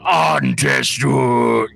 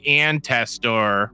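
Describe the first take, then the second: First: It is said with the original native inflection. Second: It is said with a Midwestern American accent. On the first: The speaker calls it right. "I should be saying Antester. You know, I should be saying that every single time with that same inflection" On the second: The speaker calls it wrong. "because I'm from the middle of America, I'm just going to say Antester"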